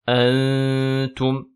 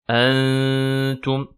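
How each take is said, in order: No difference in how they are said.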